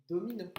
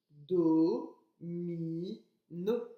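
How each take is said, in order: First: Said in the usual way. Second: "Do, mi, no" détaché, le "Do" fort et allongé; syllabe par syllabe. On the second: Shown as a demonstration. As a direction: relire en séparant chaque syllabe. (en scandant lentement chaque syllabe) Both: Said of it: "j'ai écrit domino".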